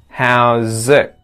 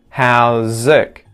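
First: The final T is stopped with the tongue back. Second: The same.

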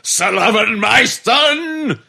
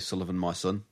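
First: It is shouted loudly. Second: It is said quietly, without shouting.

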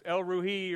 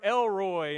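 First: The name is said in a Hebrew-like way. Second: The name is said in an East Texan way. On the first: The speaker calls it right. "but really it's Elruhi or something like that" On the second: The speaker calls it wrong. "that's East Texan pronunciation"

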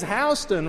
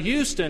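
First: It is said the local Macon, Georgia way. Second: It is said the general, non-local way. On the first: The speaker talks like a local of Macon. "he says Houston" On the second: The speaker talks like an outsider. "rather than Houston"

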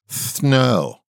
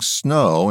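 First: The s is lisped, sounding like th. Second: The s is a clear hissing sound. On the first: The speaker calls it wrong. "instead of snow" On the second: The speaker calls it right. "naturally saying snow"

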